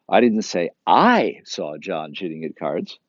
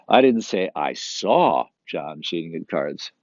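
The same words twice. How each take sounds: First: The second word I is stressed. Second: The word saw is stressed. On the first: Someone else saw it. "Someone else saw" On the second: He cheated, but it was not seen. "But he was still cheating"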